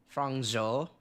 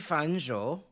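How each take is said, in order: First: The first syllable ends in an ng sound. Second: The first syllable ends in an n sound. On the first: The speaker calls it right. "Fang Zhou, I think" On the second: The speaker calls it wrong. "I think I'm saying Fan Zhou wrong"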